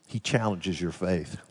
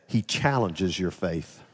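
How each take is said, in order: Both takes have the same delivery.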